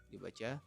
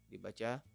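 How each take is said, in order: Both takes have the same delivery.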